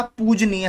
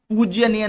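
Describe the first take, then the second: First: पूजनीय said slowly and carefully, "poo-ja-neeya", with no "jy"; correct form said. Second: पूज्यनीय said with an extra "jy" sound, "poojyaneeya", a little higher; पूज्यनीय raised, spoken as the wrong "poojya-neeya"; wrong form said. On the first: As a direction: spell out पूजनीय slowly, syllable by syllable. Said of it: "पूजनीय होता है". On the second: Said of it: "पूज्यनीय नहीं होता". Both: Shown as a demonstration.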